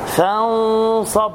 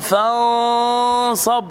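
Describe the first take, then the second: First: The n is hidden with a measured nasal sound. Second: The nasal sound is stretched far too long. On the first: The speaker calls it right. "فانصب مع تفخيم الغنة" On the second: The speaker calls it wrong. "ولا تبالغ في الغنة مثلا، فلا تقل فانصب"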